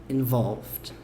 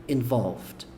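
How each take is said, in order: The two takes are said the same way.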